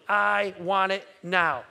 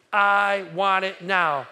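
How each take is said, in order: First: "I want it now" yavaşça, "I" vurgulu, congregation repeating; slow I want it now. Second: Chanted, "I want it now" slow and loud, "I" hit hard; chanted, counted-in call, slow and loud; louder slow chant. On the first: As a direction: lead the room, slow and firm on "I". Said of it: "So say this with me". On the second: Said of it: "One, two, three". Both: Shown as a demonstration.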